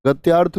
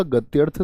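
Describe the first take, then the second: First: गत्यार्थ with a long aa after ty; wrong pronunciation. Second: गत्यर्थ with a short a after ty; correct pronunciation. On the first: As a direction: say गत्यार्थ as gat-yaarth. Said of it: "कोई शब्द नहीं होता". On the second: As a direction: say गत्यर्थ as gat-yarth. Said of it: "शब्द होता है". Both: Shown as a demonstration.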